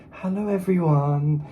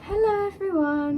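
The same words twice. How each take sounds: First: Slow, polite receptionist greeting; secretary voice. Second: Polite secretary-like hello; sincere greeting. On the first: Retold or imitated. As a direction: mimic a prim secretary. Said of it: "It's like a goddamn secretary". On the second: Acted. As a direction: greet them like a receptionist. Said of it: "what was that so sincere?".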